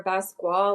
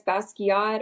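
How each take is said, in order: First: "Basquiat" in two syllables, bas-KWAH; "Basquiat" said with no "kee", just bas-kwah. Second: "Basquiat" in three syllables, BAS-kee-aht. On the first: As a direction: run the end of "Basquiat" into "kwah". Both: Shown as a demonstration. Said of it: "we're probably both saying it wrong".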